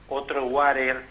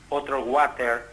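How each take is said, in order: The two takes are said the same way.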